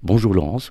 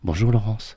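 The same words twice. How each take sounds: First: It is said in a plain, unsoftened voice. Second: It is said in a softened, gentle voice.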